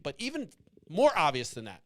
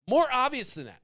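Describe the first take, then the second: First: Said in the usual way. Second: More obvious than that, higher and louder with MORE punched; emphatic repeat. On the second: Real, not acted. Pushing viewers to name the obvious fix, emphatic. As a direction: hammer the word More on the repeat.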